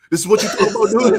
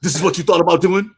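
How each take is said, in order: First: Louder, slightly higher taunting dad; mocking old dad. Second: Louder taunting father voice; mocking old dad. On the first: Father mocking his son, a louder higher taunt. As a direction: push the taunt further. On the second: Father mocking his son in the sparring rematch. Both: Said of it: "with the old man strength".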